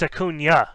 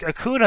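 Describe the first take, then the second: First: The middle is an 'ny' sound, like 'nyuh'. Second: The middle is a plain 'n' sound. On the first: The speaker calls it right. "no, it's Acuna ... a invisible Y" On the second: The speaker calls it wrong. "Matt was like Acuna"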